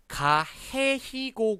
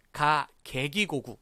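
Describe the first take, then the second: First: 해, 히 with an h sound in the middle; soft g as h. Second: 개, 기 with a hard g, not h; hard g throughout. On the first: Student questioning the teacher, h sounds in 해, 히. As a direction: say 가, 해, 히, 고 with h on the second and third. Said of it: "구 말고". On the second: Student asking how to get g, hard g in 개, 기. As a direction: say 가, 개, 기, 고, 구 all with g. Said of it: "개와 기 발음은 어떻게 합니까?". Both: Shown as a demonstration.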